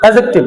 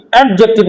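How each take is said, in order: First: অ্যাডজেক্টিভ with the ড dropped, straight to জ; correct pronunciation. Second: অ্যাডজেক্টিভ with the ড sounded clearly, ed-jek-tiv; wrong pronunciation. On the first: Teacher giving class the right অ্যাডজেক্টিভ, no d. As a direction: say অ্যাডজেক্টিভ gliding past the ড. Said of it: "direct যে চলে যাবা". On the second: Teacher showing class the wrong অ্যাডজেক্টিভ, d sounded. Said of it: "ডটা উচ্চারণ হয় না". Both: Shown as a demonstration.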